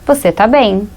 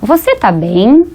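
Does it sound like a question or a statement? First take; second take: statement; question. First: It is said with a statement intonation. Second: It is said with a questioning intonation. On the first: The speaker is stating that the listener is well. "se essa frase fosse uma afirmativa" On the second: The speaker is asking if the listener is well. "Eu tô com uma entonação de pergunta"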